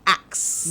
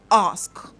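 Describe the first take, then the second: First: The word ends with a k then s. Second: The word ends with an s then k. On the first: The speaker calls it wrong. "And people say axe" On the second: The speaker calls it right. "number four is ask"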